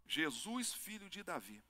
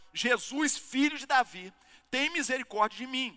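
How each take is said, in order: First: Said in the usual way. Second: High, loud plea for mercy; raised voice, imitating a desperate shout; acted crying out. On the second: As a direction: call out like the blind beggar. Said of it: "ele pôs-se a gritar".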